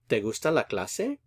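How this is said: It is said with question intonation. Do you like the class? "just adjust your intonation is all you have to do"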